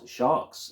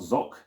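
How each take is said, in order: First: The word is said as sharks. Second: The word is said as zoc. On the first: "It is not sharks" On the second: "it's not zoc"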